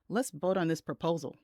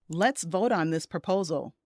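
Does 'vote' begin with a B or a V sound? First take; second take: B; V. First: 'Vote' begins with a B-like sound. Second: 'Vote' begins with a clear V sound. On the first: It sounds like a different word. The speaker calls it wrong. "but instead it sounds like" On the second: The group should cast votes. The speaker calls it right. "That's what you meant to say"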